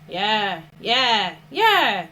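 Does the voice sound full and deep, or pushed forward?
pushed forward. The voice sounds thin and pushed to the front. The speaker calls it wrong. "Avoid pushing the voice forward"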